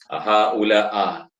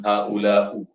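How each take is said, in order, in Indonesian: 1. Kata itu diakhiri dengan vokal a. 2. Kata itu diakhiri dengan vokal u. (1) "tukar baris atas ... tak boleh" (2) "tukar baris ... tak boleh"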